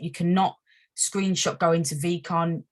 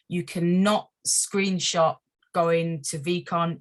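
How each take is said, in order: First: It is said at normal speed. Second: It is said very slowly.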